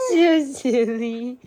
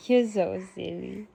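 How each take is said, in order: First: High, slow, louder coo on "You're so silly". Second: Said in the usual way. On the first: Real, not acted. Baby talk vs plain.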